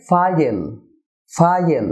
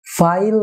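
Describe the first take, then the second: First: ফাইল as two syllables, "FA-yel"; correct pronunciation. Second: ফাইল as one syllable, "fail"; wrong pronunciation. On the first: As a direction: open ফাইল out to "fa-yel", dark l. (ফাইল-এর সঠিক উচ্চারণ, "ফায়েল") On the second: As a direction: say ফাইল with a plain light l. (ফাইল-এর ভুল উচ্চারণ, এক সিলেবলে) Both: Shown as a demonstration. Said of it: "না হয়ে হবে".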